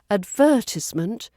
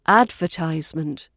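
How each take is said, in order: First: The stress is on the second syllable. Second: The stress is on the first syllable. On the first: "Brits stress the second syllable" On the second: "where Americans, the first"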